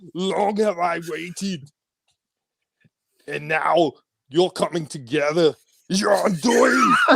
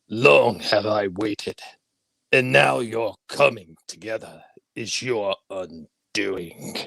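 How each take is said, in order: First: A put-on, Austrian-accented strongman's voice. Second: A put-on, sinister old emperor's voice. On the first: "And Schwarzenegger" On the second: "Tell me your best Palpatine"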